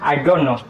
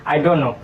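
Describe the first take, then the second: The two takes are said the same way.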